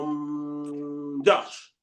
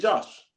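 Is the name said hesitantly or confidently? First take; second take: hesitantly; confidently. First: The name is said hesitantly, after a filler. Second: The name is said at once, with confidence.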